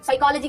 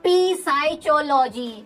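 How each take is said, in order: First: It starts with 's' and has a 'k' sound. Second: It starts with 'p' and has a 'ch' sound. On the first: This is how the word is normally pronounced. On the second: This reading follows the spelling to help remember it.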